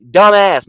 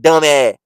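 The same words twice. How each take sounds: First: "Dumbass" loud, with a full hissed final s; loud "Dumbass", ending fully sounded; correct pronunciation. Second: "dumb ass" loud, the final s dropped to "eh"; mock "dumb ass" as "dum-eh"; slurred, loud "dumb ass" with open ending; mocked mispronunciation. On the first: Shown as a demonstration. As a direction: model "Dumbass" clearly and emphatically. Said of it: "not dumb ass". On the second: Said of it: "It ain't A H H".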